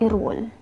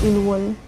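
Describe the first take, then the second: First: The middle consonant is an R sound. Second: The middle consonant is an L sound. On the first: The speaker calls it right. "magiging tunog yan guys ay irwol" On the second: The speaker calls it wrong. "hindi siya Ilwol"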